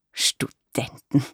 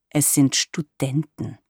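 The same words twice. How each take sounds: First: Aghast, breathed very slowly in a whisper; appalled, drawn-out whisper; horrified whisper. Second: Mildly irritated, a bit slow and firm; a touch of irritation, slowed down. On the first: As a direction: gasp the word out in shock. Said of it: "rief sie entsetzt aus". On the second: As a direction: correct her with restrained annoyance. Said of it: "sagte ich gereizt". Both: A narrator's reading.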